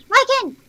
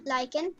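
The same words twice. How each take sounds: First: High, loud call of the dog's name; sharp call across the yard. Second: Said in the usual way. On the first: Real, not acted. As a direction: yell the name to stop him. Calling dog in game.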